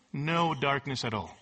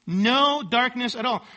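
First: Low, matter-of-fact statement; understated answer. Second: NO drawn out and pitched high; emphatic repeat. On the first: Preacher answering his own question about a Greek word, understated. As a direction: drop the pitch and state it simply. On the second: Preacher driving home the Greek word, with emphatic stress on NO. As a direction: lean hard and slowly on NO. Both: Shown as a demonstration.

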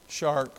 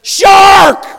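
First: Low, very soft, unbothered mention; mock half-hearted warning. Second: High, very loud warning yell; alarm shout. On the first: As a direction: say it as if nothing is wrong. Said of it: "Nobody goes". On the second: Acted. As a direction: shout it to clear the water. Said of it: "Nobody goes, "Shark".

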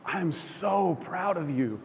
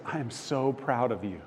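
First: "so" drawn out and raised; slow, heartfelt stress on "so"; emphatic pride. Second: Tender reassurance. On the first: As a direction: lean long and high on "so". God's reassurance repeated with weight. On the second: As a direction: quietly voice a father's approval. God's reassurance, first take. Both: Retold or imitated.

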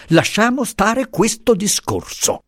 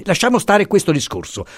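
First: High, slower, pressing the refusal; slower, insistent repeat. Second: High, sharp shutting the topic down; impetuous refusal. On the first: Professor repeating his refusal to Pasotti, slower and insistent. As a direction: say it again, slower and firmer. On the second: Professor refusing to discuss the Rigée, impetuous. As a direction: end this conversation now. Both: A narrator's reading. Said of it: "diss'egli impetuosamente".

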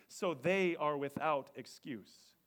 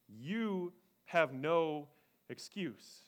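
First: "they" stressed, slow; "So they are without excuse" with weight on "they". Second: "You" leads, slow and heavy; "You have no excuse" said slow with weight on "You"; stress on You. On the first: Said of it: "it's worded that way". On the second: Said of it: "it's not worded that way". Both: Shown as a demonstration.

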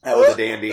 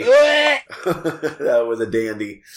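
First: High, squeaky after a coughing fit; high-pitched exclamation. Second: Slow, laughing through the words. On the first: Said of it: "repeats it laughing". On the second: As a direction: laugh it out slowly. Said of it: "repeats it". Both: Real, not acted.

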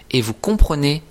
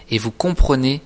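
The two takes are said the same way.

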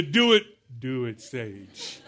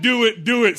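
First: Sinking low, winding down; worn-out older stage. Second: High, loud, peppy repeat; eager young stage. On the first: Preacher mimics his own aging stage, sagging and weary. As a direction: let the pitch sag and fade by the end. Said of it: "Some of us are at the". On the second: Preacher mimics the young listeners' stage, high and loud. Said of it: "You're still at that". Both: Acted.

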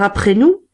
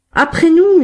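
First: Louder, firm demand rising at the end. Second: Much higher and louder, a group roar; gang shout. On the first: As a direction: insist he waits, with a lift. Bigrenaille blocks Thénardier. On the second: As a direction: bellow it like the whole gang at once. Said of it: "hurlèrent les bandits". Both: A narrator's reading.

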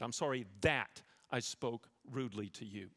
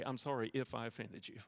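First: "that" leaned on and falling, naming the wrong plainly; right apology, stress on that. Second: "if" leaned on, the hedge in "I'm sorry if I offended you"; wrong apology, stress on if. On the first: Preacher showing the church the proper apology, "that" stressed. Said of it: "and then you name what it is you did". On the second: Preacher showing the church how not to apologize, "if" stressed. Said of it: "You never say if". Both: Shown as a demonstration.

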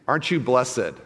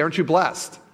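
First: "blessed" as bless-ed, two syllables; the stilted churchy bless-ed; wrong two-syllable blessed. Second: "blessed" as blest, one syllable; usual one-syllable blest. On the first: Preacher showing what nobody says, bless-ed. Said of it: "We don't say that". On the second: Preacher showing everyday speech, one-syllable blest. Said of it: "We say". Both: Shown as a demonstration.

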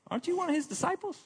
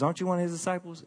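First: Much higher, fast, pointed question; accusing woman. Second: A hint of the questioning woman, quick; just ask it, almost offhand; lightly voiced woman. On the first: Acted. Gate woman confronts Peter, high and fast accusing. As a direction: jab the question right at him. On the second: Gate woman questions Peter, lightly voiced and quick.

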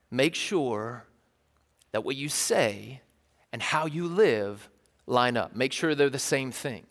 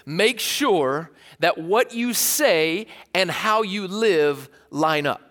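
First: Fatherly advice. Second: Slow, deliberate dad advice. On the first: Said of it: "He'd say". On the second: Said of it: "James would kind of say it like this". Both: Retold or imitated.

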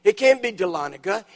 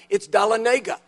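First: "Dahlonega" said duh-LON-uh-guh, stress on the second syllable; "Dahlonega" with the weight on the second syllable, LON; wrong stress. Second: "Dahlonega" said dah-luh-NAY-guh, stress on the third syllable; "Dahlonega" with the long NAY syllable stressed; corrected stress. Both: Retold or imitated. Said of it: "you've got the emphasis on the wrong syllable".

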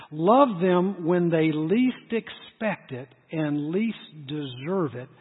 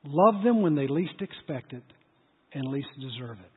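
First: Much slower, every word weighed; slow emphatic repeat. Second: Said in the usual way. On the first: Shown as a demonstration. Preacher repeating the key line to the congregation, slow and weighty. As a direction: drag it out so it sinks in. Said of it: "I want you to hear this". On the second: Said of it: "Now, listen to this".

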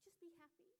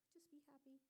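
First: High, soft plea of "Just be happy"; fretful mom plea. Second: Whispered plea. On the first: Anxious mother coaxes her crying baby, high and pleading. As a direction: coax the baby a touch desperately. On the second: Anxious mother whispers to her screaming baby. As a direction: hush it out as a last plea. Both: Retold or imitated. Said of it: "If the baby starts to scream".

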